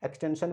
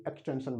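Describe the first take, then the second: First: एक्सटेंशन mispronounced as "eks-ten-sun"; wrong "sun" ending. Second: एक्सटेंशन pronounced "eks-ten-shun", softer; correct "shun" ending. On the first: Teacher shows the error, एक्सटेंशन ending in "sun". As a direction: say एक्सटेंशन with s in place of sh. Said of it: "तो ये एक्सटेंशन नहीं". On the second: Teacher gives the right form, एक्सटेंशन ending in "shun". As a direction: end एक्सटेंशन with a sh sound. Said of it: "बन गया". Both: Shown as a demonstration.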